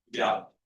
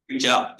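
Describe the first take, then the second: First: Said in the usual way. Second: Reach out said louder, pressed hard on out; emphatic repeat. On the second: Real, not acted. Teacher urging struggling students, a louder emphatic repeat. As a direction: urge it, stronger the second time.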